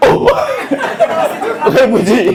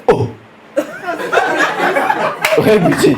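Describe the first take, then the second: First: Higher, drawn-out "Oh, Rebuti"; surprised recognition. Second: Stretched, amazed "Oh, Rebuti"; surprised recognition. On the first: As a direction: gasp it in disbelief. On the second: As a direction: act stunned to see him. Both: Retold or imitated. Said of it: "Il fait".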